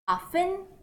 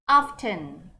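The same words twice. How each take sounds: First: The T sound is silent. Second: The T sound is pronounced.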